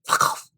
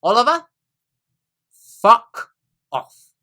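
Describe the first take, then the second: First: A hushed, voiceless jab quoted back; whispered retort. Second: Imitating her loud, exasperated snap; high, forceful curse, quoted back at full volume; retold outburst. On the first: Retold or imitated. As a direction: whisper it sharply, imitating her. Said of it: "Whispered it at me". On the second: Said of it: "And she said".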